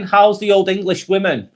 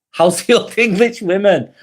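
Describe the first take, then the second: First: Said in the usual way. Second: Amused, chuckling it out; laughing. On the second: Real, not acted. Streamer repeats a viewer's cheeky comment, laughing. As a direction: repeat it through a real laugh.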